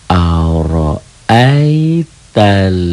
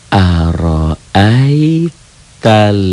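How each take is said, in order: The two takes are said the same way.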